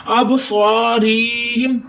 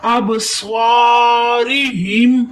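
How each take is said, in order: First: ابصارہم with the ri dragged out long; ابصارہم recited with a long reee; wrongly lengthened ri. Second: ابصارہم slow, long saa but a brief ri; ابصارہم with drawn-out saa and unstretched ri; short quick ri. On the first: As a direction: show the mistake, stretching ri in ابصارہم. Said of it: "ری کو بھی لمبا کر دیتے ہیں لوگ". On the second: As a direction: recite ابصارہم holding saa, passing quickly over ri. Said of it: "ری کو آپ نے جلدی سے پڑھنے". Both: Shown as a demonstration.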